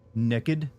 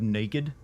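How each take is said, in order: First: It is said with a Southern accent. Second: It is said without a Southern accent. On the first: "some people have noticed that I say uh, naked" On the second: "instead of naked"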